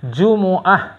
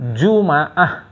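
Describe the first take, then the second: First: The m is followed by an u vowel. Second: The m is followed by an a vowel. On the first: "yang paling fasih Jumu"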